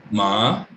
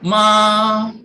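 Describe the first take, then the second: First: "ma" low and rising upward; second-tone "ma", rising. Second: "Ma" held high and level, louder; first-tone "Ma", long and level. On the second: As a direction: sing "Ma" high and flat like tone one. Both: Shown as a demonstration. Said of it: "Misalnya ma".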